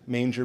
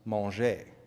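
First: It is said with an English accent. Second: It is said with a French accent. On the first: It names a feeding trough for animals. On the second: It means to eat.

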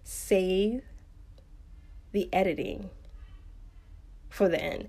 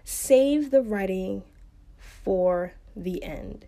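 First: It is said more slowly and carefully. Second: It is said at a normal pace.

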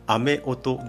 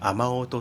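First: The word is said in its unchanged full form. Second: The word is said in its smoothed, easier form. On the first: "雨音ではなくて" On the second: "雨音っていうふうに言う"

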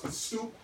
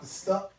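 First: The vowel is a long 'oo' sound. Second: The vowel is a short 'uh' sound. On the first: The speaker calls it right. "It's pronounced The Stoop" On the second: The speaker calls it wrong. "not The Stup"

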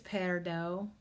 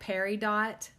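First: The final T is silent. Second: The final T is sounded. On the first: "it's a silent T" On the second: "it looks like peridot"

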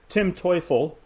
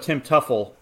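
First: The surname is said with its German pronunciation. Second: The surname is said with an anglicized pronunciation. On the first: The name means the devil. "Tim Teufel is Tim the devil" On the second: The name refers to the baseball player. "but Tim Tuffel is this guy that we have here"

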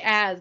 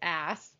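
First: The name ends with a buzzing z sound. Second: The name ends with a hissing s sound. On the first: The speaker calls it right. "Just say Az" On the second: The speaker calls it wrong. "Don't say Ass"

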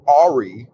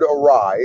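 First: It is said as the spelling suggests. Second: It is said the way it is heard aloud. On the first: The speaker calls it wrong. "So I always read it as awry" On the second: The speaker calls it right. "I had always heard the word awry"

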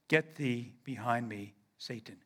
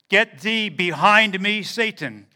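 First: It is spoken with a low, deep pitch. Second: It is spoken without the low, deep pitch. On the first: The speaker calls it wrong. "I do not believe he used that low inflection that I'm using now" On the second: The speaker calls it right. "is how I think Jesus said that"

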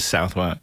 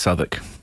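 First: The word is said in full, as written. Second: The word is shortened, with some letters not said. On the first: The speaker calls it wrong. "It just literally says Southwark" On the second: The speaker calls it right. "is actually pronounced Southwark"

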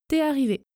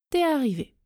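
The two takes are said the same way.

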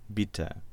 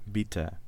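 No difference in how they are said.

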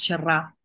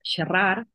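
First: Mallorcan style, the final r is dropped. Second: Catalan style, the final r is pronounced.

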